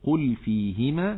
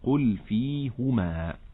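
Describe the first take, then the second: First: The h is followed by an i vowel. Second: The h is followed by a u vowel. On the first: "كما في قوله مثلا" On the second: "فيقرأ"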